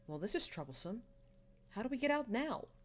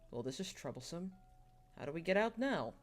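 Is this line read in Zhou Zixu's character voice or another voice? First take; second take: Zhou Zixu's; another voice. First: It is read in Zhou Zixu's character voice. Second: It is read in a different character's voice.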